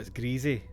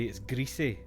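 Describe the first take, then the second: First: The first part does not sound like Greece. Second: The first part sounds like the word Greece. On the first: "I'd go, oh, it's greasy" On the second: "I feel like I should pronounce it like Greece"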